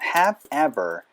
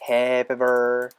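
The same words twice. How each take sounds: First: The two words are said separately. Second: The v sound runs into the next word. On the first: "원래는 have ever 이렇게 얘기를 해주는 게 맞는데" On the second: "V 사운드랑 ever가 연결이 되면서"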